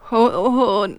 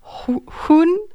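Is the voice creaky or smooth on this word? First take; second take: creaky; smooth. First: The word is said with a creaky voice. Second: The word is said with a smooth voice. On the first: It means 'dog'. "wenn man Hun, ich kann es nicht so gut, dann bedeutet es Hund" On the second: It means 'she'. "Hun ist sie"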